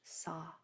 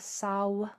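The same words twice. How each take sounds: First: The word ends on an open ah vowel. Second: The word ends with an audible W glide. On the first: The speaker calls it right. "it's just saw with your jaw dropped" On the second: The speaker calls it wrong. "It's not saw"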